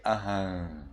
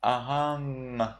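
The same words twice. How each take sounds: First: Ahang with the final ng dropped to a nasal; Burmese pronunciation. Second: Ahang ending in a clear ng; Sri Lankan pronunciation. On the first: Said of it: "in Myanmar, you say". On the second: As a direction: finish ahang on ng. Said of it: "In Sri Lanka, you would say". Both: Shown as a demonstration.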